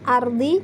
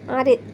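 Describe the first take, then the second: First: The vowel is heard after the final d. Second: The vowel moves before the final d. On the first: "Letak nakal adalah lafadz ardi" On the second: "jika diwakafkan maka boleh dibaca arid"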